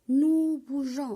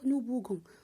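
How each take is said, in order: First: The g is soft, like in rouge. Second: The g is hard, like in go. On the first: The speaker calls it right. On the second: The speaker calls it wrong.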